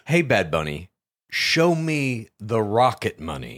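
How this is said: It is said in a dry, flat way.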